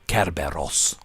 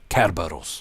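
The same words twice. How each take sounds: First: It is pronounced the Greek way. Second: It is pronounced the English way.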